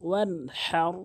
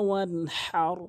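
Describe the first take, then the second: Both takes have the same delivery.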